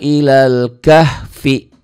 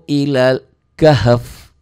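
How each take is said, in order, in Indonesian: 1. Kata terakhir berakhir dengan suku kata 'fi' yang utuh. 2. Kata terakhir berakhir dengan bunyi 'f' saja.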